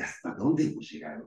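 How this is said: It sounds positive and excited. The speaker marvels at how much has been achieved. "que sería positivo, ¿no? Así es como emocionante"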